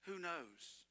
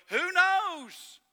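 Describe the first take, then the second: First: Much softer, sorrowful who knows; hushed sad echo; sad, quiet. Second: High, loud mock shrug of a question; sneering high who knows; mocking eulogist. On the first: Real, not acted. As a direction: let it fall quietly in grief. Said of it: "That's what's so sad to me". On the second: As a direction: toss it off like a clueless eulogist. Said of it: "and go".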